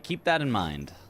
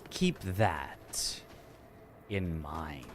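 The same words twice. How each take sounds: First: It is said in a plain, normal tone. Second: It is said in an ominous, dark tone.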